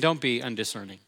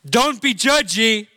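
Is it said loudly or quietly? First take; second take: quietly; loudly. First: It is said quietly. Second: It is said loudly.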